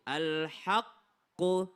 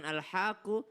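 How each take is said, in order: First: AL-HAQQU slow, with the q doubled and held; drawn-out AL-HAQQU with a firm double q; correct tasydid. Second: AL-HAQQU quick, q not doubled; wrong AL-HAQQU with a single q; missed tasydid. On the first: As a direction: hold the Q in AL-HAQQU before releasing. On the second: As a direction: slide past the Q in AL-HAQQU, as a mistake. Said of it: "Jangan bukan al-haqqu". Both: Shown as a demonstration.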